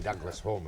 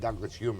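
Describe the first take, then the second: First: The surname is said to rhyme with 'home'. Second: The surname is said to rhyme with 'fume'. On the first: This is how people in Scotland say it. "we'd say Douglas Home in Scotland" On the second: This is how people in England say it. "You'd say Douglas Hume in England"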